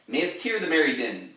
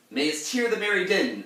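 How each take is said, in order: First: Higher, louder declaimed line; theatrical reading. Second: Much higher, louder declaimed quote; theatrical reading. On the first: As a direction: recite the verse with a flourish. First reading of quote. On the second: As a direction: declaim the old verse grandly. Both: Shown as a demonstration.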